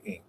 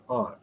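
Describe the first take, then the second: First: "ain't" said with an ay vowel; Southern ain't. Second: Said in the usual way. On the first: Shown as a demonstration. Contrasting North and South, says "ain't" Southern style. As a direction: say aunt as "ain't". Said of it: "they say ain't". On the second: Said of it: "Here we say aunt".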